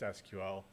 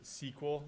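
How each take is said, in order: First: It is said as three separate letters. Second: It is said as one word, like sequel. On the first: This is the usual way to say it. "Otherwise, it's just S Q L" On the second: This is how people from one software background say it. "you'll hear some people pronounce it S Q L"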